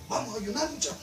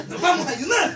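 First: Said in the usual way. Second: "Nos vamos a ayunar" said higher and louder, laughing; mock eager quote. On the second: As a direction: ham up a keen "ayunar" with a laugh. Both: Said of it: "¿Cree usted que dijeron así?".

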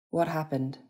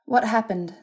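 First: Said in the usual way. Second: High, urgent question; demanding. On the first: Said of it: "he inquired". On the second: A narrator's reading. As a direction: demand an answer, pitch raised. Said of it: "she demanded".

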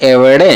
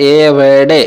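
First: এভারডে run together as one word; said all together. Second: এভারডে drawn out, part by part; broken-down pronunciation. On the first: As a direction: join the syllables of এভারডে without stretching. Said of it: "একসাথে". (এভারডে একসাথে, না ভেঙে উচ্চারণ) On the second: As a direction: stretch each syllable of এভারডে for learners. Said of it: "এরকম উচ্চারণ করতে হবে". (এভারডে টেনে টেনে, ভেঙে ভেঙে উচ্চারণ) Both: Shown as a demonstration.

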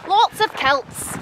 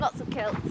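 First: Slow, stretched Scottish "kilts"; drawn-out attempt at a Scottish accent. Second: Said in the usual way. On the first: Shown as a demonstration. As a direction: practise Scots with the vowel in "kilts" opened towards "kelts". Practising Scottish accent on the phrase.

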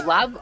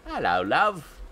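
First: Mock British greeting. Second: Hammed-up cockney "Hello, love"; lightly put-on London accent on "Hello, love"; cheeky cockney greeting; mock British greeting. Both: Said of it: "that's the worst".

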